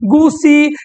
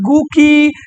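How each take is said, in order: First: The middle consonant is an s sound. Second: The middle consonant is a k sound. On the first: "पढ़ ले लसन" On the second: "पढ़ ले लसन"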